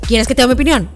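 The question sounds impatient and condescending. The speaker is annoyed and not really interested. The speaker calls it wrong. "Pero no así como que, a ver"

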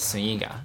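The name is said with a Spanish pronunciation.

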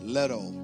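It is said in an American accent.

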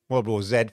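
The letter Z is said as zed.

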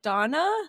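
The name is said with a British pronunciation. "someone from the UK, they're like Dana"

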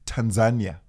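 It is said the Shona, Zimbabwean way. The speaker calls it right. "So I say it's Tanzania"

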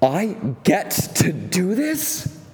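It is said excitedly, with a gasp.

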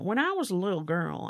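It is said with a put-on accent.

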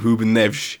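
The name is said with a Portuguese accent. "The Portuguese accent fascinates me"

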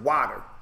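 It is said in a Boston accent.

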